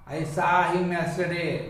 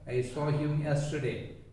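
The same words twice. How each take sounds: First: The vowel in saw is not a rounded o. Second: The vowel in saw is a half-open rounded o. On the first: The speaker calls it wrong. "generally we mispronounce it as" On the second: The speaker calls it right. "nearly pronouncing like so"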